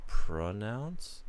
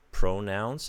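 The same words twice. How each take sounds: First: "pronounce?" asked with a rising tune; "pronounce" said as a questioning variant; alternate pronunciation. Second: "pronounce" said with an OH vowel; pronunciation demo. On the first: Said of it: "and not". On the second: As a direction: pronounce with a long OU, "pro-NOUNCE". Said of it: "It's actually". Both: Shown as a demonstration.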